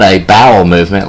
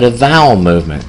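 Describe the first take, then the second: First: "bowel" said with a clear B at the start. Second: "vowel" said with V in place of B. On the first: Storyteller showing the proper term, "bowel" starting with a B. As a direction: pronounce "bowel" with B, as in boy. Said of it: "like with the letter B". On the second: Storyteller showing what the old man said, "vowel" starting with V. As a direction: begin "vowel" with a clear V sound. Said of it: "I heard a V at the beginning". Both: Shown as a demonstration.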